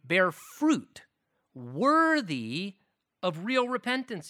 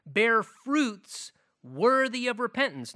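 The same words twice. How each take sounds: First: "worthy" set apart by pauses and lifted; paused emphasis. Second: "worthy" leaned on in one flowing loud line; one sweep with the weight on "worthy"; stress on worthy. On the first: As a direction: break it up phrase by phrase, "worthy" alone. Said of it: "Notice, repentance has fruit". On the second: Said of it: "repeats the phrase more slowly". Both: Shown as a demonstration.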